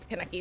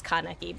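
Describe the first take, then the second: First: "Kaneki" as kuh-NECK-ee; Americanized pronunciation. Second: "Kaneki" with an open KAH at the start; proper pronunciation. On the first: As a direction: reduce the first vowel of "Kaneki", stress the middle. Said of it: "easier to say for my little American mouth". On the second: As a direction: say "Kaneki" as KAH-neh-kee, stressed first. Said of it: "Kaneki is just easier to say". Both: Shown as a demonstration.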